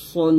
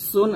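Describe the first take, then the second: First: সুন with a heavy S, darkened toward "son"; full emphatic Arabic S in সুন; thick sad. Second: সুন with a light, thin S; unthickened S in সুন; thin sin. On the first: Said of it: "সুন মোটা করে". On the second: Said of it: "আর এটা সুন মোটা করে". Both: Shown as a demonstration.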